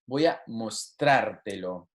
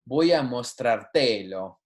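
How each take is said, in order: First: The stress in mostrártelo falls on the 'trar' syllable. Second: The stress in mostrártelo falls off the 'trar' syllable. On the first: The speaker calls it right. "We need the emphasis on the correct syllable" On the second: The speaker calls it wrong. "If you didn't add that accent, it would sound like this"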